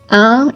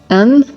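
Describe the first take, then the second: First: One nasal vowel with no separate n sound. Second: A vowel followed by a separately pronounced n. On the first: The speaker calls it right. "That N in the nasal sound is not pronounced" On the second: The speaker calls it wrong. "The big, big, big mistake to avoid is pronouncing the letters separately"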